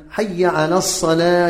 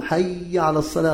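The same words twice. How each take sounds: First: "حي" as hayya, doubled ya with clear final a; correct hayya. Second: "حي" with a mispronounced, stretched ya; wrong hayya. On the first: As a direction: say hayya firmly, then على الصلاة. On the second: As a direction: stretch the ya of حي before على. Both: Shown as a demonstration. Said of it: "خطأ، إنما ماذا؟".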